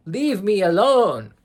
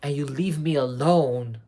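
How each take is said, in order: First: Higher, louder, slower mock yell. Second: Said in the usual way. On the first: Agatha blackmailing Rio, hammed-up yell. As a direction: throw the demand out like a hammed-up outburst. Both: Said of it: "where she's like".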